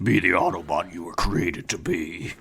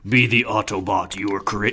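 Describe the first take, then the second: First: It is said in an Optimus Prime voice. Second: It is said in a Galvatron voice.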